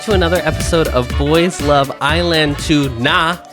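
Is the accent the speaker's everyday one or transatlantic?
everyday. It is said in an everyday accent.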